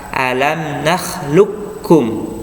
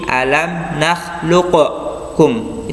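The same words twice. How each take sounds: First: The q merges straight into the following k. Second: The q is released with a bounce before k. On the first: The speaker calls it right. "dibaca langsung masuk ke huruf kaf tanpa mengkolkolahkan huruf qaf" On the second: The speaker calls it wrong. "seperti alam nakhluqkum, itu salah"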